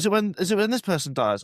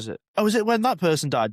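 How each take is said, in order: First: It is said plainly, without extra energy. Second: It is said confidently, with lots of energy.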